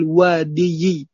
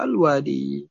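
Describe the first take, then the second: First: The word ends with an added -yi syllable. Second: The word ends on a plain long i. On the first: The speaker calls it wrong. "thaqil. Susah diucapkan" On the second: The speaker calls it right. "Cukup dibaca al wadi"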